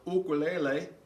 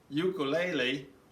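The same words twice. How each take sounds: First: It is said with a Hawaiian pronunciation. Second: It is said with a mainland American pronunciation.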